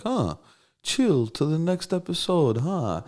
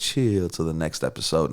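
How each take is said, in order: First: High, slow mock-mom voice; drawn-out, amused imitation of his Russian mom puzzling over the lyric; imitating mom. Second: Said in the usual way. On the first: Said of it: "she'd be like". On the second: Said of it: "Snoop said".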